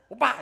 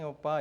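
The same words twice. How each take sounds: First: It is said in a sharp, reproachful voice. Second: It is said in a soft, gentle, warm voice. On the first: The listener feels he did something wrong. "잘못을 한 것 같은 항상 오빠였어요" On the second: The caller is being affectionate. "상냥한 목소리로"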